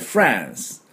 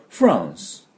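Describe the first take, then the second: First: It is said in an American accent. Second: It is said in a British accent, vowel further back. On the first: "アメリカ人の場合ね" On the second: "イギリス人だとフランス、フランス、もっと奥かであって音を出す"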